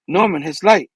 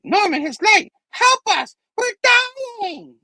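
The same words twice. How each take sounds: First: Said in the usual way. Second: Very high, strained mock scream; desperate dying plea. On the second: Dying Goblin begging Norman for help, high panicked wail. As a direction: shriek it as a hammed-up dying villain.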